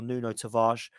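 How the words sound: The name is said with a foreign-sounding accent. It imitates how others say it to sound foreign. "as people like to call it, and try and be uh, foreign"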